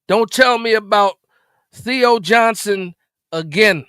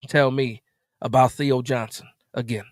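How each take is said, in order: First: Firm, louder warning. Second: Said in the usual way. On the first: Real, not acted.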